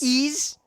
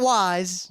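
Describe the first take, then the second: First: It sounds like the word ease. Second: It sounds like the word wise. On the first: The speaker calls it right. "Ease, not wise" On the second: The speaker calls it wrong. "not wise"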